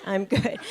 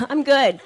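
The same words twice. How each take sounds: First: I'm good, dropped lower and softer; quieter repeat. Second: Said in the usual way. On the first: Shown as a demonstration. Refusing the nail lady again, lower and softer. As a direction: mutter I'm good under the breath.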